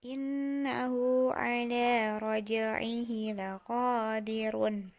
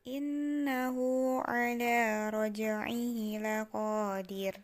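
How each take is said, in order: First: The last word ends with a vowel and n. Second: The last word ends on a bare consonant. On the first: This is the reading without stopping. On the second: This is the reading when stopping at the end.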